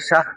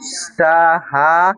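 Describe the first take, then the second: First: The final r is left out entirely. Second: The final r is sounded only lightly. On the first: The speaker calls it wrong. "অনেকে বলছে শাহ" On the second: The speaker calls it right. "উচ্চারণ হবে সাহা। একটু র শুধু ভাসানো হবে"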